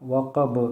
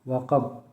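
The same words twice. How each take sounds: First: The final consonant is released with an echoing bounce. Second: The final consonant stops flat without an echo. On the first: "कलकला के साथ" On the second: "बग़ैर कलकला के"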